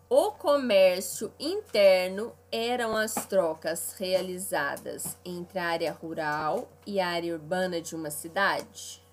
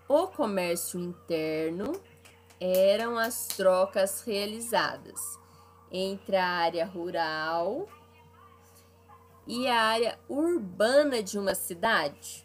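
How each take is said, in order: First: It is read at a normal pace. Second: It is read more slowly.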